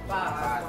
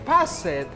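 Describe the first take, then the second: First: The word ends in a plain T sound. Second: The ending is said as an extra syllable. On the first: The speaker calls it right. "Like T" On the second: The speaker calls it wrong.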